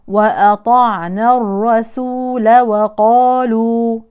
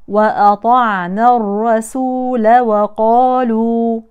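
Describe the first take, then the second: Both takes have the same delivery.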